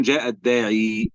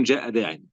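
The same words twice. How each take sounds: First: جاء الداعي with the final ya of الداعي held long as "ad-daa'ii"; ya kept. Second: جاء داعي said "daa'in", ending on a nunation with no long ya; ya dropped. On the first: Teacher shows the article form to the class, final ya sounded. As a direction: say الداعي with the ending ya clearly sounded. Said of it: "فيقولون جاء الداعي". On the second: Teacher shows the bare form to the class, final ya dropped. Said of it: "فيقولون جاء داعي". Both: Shown as a demonstration.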